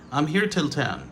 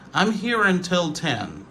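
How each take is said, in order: First: The word is reduced to till. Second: The word is said fully as until. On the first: "c'est la réduction de until" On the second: "Until devient till"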